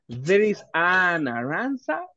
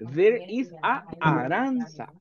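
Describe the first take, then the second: First: The n sound links smoothly into Aranza. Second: A small break separates the two vowels. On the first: The speaker calls it right. "yes. Vea que hasta sale más fácil unir el sonido" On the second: The speaker calls it wrong. "tengo que hacer una pausa entre el sonido de vocal y después otra vocal ... not natural"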